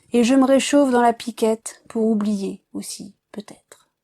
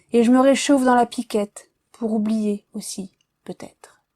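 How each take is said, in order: No difference in how they are said.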